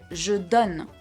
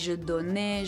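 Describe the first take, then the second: First: The word ends on the N sound. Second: The word ends with an extra vowel sound. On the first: The speaker calls it right. "I stopped at the N sound" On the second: The speaker calls it wrong. "I didn't say je donnais"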